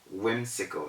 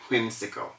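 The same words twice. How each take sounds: First: It begins with a plain w sound. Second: It begins with a breathy h sound. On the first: The speaker calls it right. "whimsical instead of" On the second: The speaker calls it wrong. "instead of whimsical"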